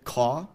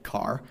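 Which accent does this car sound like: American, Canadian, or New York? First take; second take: New York; American. First: The r is dropped and the vowel is unchanged. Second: The r is pronounced after an unshifted vowel. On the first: "drop the R without backing or lowering the vowel... That sounds more like New York" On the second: "in a standard American accent without shifting my vowels"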